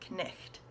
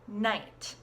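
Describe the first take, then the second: First: The k and gh are both sounded. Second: The k and gh are silent. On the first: This is how the word was said in Middle English. "in Middle English, they pronounced every single letter" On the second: This is how the word is said today. "we pronounce it now as night"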